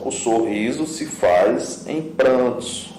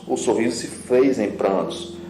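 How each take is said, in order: First: Slow reading. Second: Said in the usual way. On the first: Shown as a demonstration. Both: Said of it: "Olha só".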